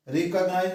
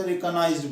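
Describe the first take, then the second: First: रिकॉग्नाइज said quickly with no final d sound; wrong pronunciation. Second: रिकॉग्नाइज्ड said quickly with a clear final d; correct pronunciation. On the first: Teacher shows students the wrong way, रिकॉग्नाइज with no d. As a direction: clip the ending of रिकॉग्नाइज, leaving off the d. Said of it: "रिकॉग्नाइज नहीं बोलते". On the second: Teacher gives students the right form, रिकॉग्नाइज्ड with final d. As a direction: finish रिकॉग्नाइज्ड on a distinct d sound. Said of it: "रिकॉग्नाइज्ड बोलते हैं". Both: Shown as a demonstration.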